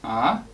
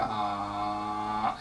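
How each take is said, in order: First: The pitch rises like a question. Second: The pitch drags down low, then releases. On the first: "sounds like you're asking a question" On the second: "I'm dragging your voice down"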